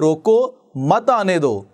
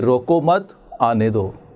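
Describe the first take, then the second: First: There is a pause after roko. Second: There is a pause after mat.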